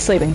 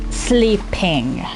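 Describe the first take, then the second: First: The P sound is barely or not pronounced. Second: The P sound is pronounced clearly. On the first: The speaker calls it wrong. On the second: The speaker calls it right.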